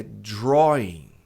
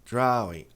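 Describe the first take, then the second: First: Drawing slow with an O sound like dró; correct pronunciation. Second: Drawing with an A sound; the common wrong drawing; wrong pronunciation. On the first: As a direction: stretch the O in drawing. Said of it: "aqui vai ser draw". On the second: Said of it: "Muita gente fala drawing". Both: Shown as a demonstration.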